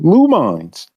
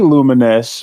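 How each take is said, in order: First: The name ends with a 'mines' sound, like mines. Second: The name ends with a 'nous' sound, like luminous. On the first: The speaker calls it wrong. "like mines. I guess they explode" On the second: The speaker calls it right. "I used to say Luminous"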